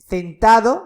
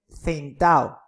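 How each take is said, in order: First: The d between the final vowels is pronounced. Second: The d between the final vowels is dropped. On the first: "en vez de" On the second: "pérdida de la D intervocálica"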